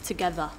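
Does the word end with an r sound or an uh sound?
uh sound. The word ends with a plain uh sound. The speaker calls it right. "it's like an uh sound at the end"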